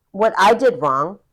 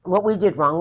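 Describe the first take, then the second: First: Said in the usual way. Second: "we" lifted and stressed as the correction. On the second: Real, not acted. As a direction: correct yourself by hitting "we" in "what we did wrong".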